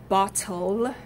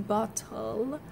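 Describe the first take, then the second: First: Said in the usual way. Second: Bottle with the t and l swallowed; Cockney bottle. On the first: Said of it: "which we use our tongue twice in". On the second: Shown as a demonstration. Teacher shows bottle the Cockney way. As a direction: drop the t and l in bottle. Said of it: "those sounds are completely dropped".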